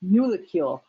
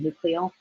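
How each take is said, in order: First: The word begins with 'nul' and ends with 'cule'. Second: The word begins with 'nuc' and ends with 'ol'. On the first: The speaker calls it right. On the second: The speaker calls it wrong.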